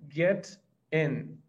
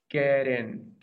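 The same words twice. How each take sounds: First: It is said slowly and separately. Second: It is said quickly and run together.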